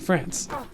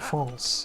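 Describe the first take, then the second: First: It is pronounced with an English pronunciation. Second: It is pronounced with a French pronunciation. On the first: "It's like the English way to say it" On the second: "I don't call it France"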